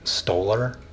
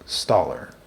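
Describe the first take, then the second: First: The first syllable sounds like the word 'stole'. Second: The first syllable does not sound like 'stole'. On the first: The speaker calls it wrong. "if you take off the R, it's the word stole. So a lot of people say stoler" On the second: The speaker calls it right. "but it's pronounced staller"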